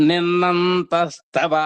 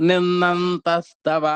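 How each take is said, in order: Both takes have the same delivery.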